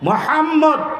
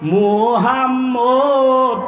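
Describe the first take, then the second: First: The vowels are kept short, with a nasal hold. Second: A vowel is stretched out long. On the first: It means the praised one. The speaker calls it right. "ওয়াজিব গুন্না, অর্থ হইল প্রশংসিত" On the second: It means the disgraced one. The speaker calls it wrong. "টান দিলে অর্থ হয় মোহাম্মদ হইল নিগৃহীত"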